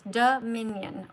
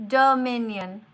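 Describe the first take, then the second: First: Dominion slowed right down, do-mi-nion; slow syllables. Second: Dominion said loud and clear; Dominion, each syllable plain and loud. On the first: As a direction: spell out Dominion slowly by its syllables. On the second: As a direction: call out Dominion firmly. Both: Shown as a demonstration. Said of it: "Three syllables".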